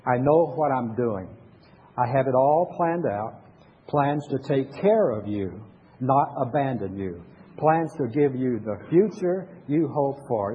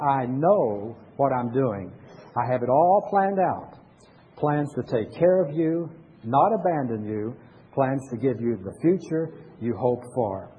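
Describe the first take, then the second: First: Slow, solemn reading of scripture. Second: Slow, solemn words read as God speaking; voicing God. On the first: Pastor leading the congregation in reading Jeremiah aloud, slow and solemn. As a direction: read it out slowly for the congregation to follow. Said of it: "Read with me, Jeremiah". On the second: Pastor reading the verse again as God speaking, slow and solemn. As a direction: speak it as God's own promise, slowly. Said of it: "This is God talking". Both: Shown as a demonstration.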